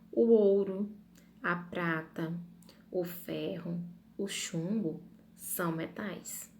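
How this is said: Short pauses separate each item in the list. The speaker calls it right. "em cada um eu fiquei atenta à minha pausa, a respiração"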